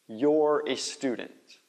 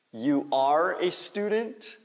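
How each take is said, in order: First: "you're" run into one syllable; contracted form. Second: YOU ARE as two separate words, slow; full form. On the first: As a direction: blend "you're" into one slow, clear word. (forma contraída, "you're" numa palavra só) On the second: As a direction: say "You are" uncontracted, slowly. (forma completa, "You are" em duas palavras) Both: Shown as a demonstration. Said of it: "Faz a contração".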